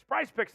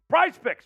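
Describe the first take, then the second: First: Said in the usual way. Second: Sponsor name punched high and loud; announcer hype. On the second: Acted.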